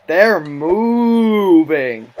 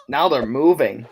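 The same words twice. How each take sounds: First: Slow stretched mock voice; drawn out. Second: Said in the usual way. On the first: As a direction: stretch every word out slowly. Repeats, drawn out.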